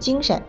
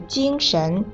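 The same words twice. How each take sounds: First: The second syllable is in the neutral tone. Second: The second syllable has a rising tone. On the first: An adjective meaning lively and energetic. "你说的精神那个神是轻声" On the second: A noun meaning spirit or mind. "神要读2 声"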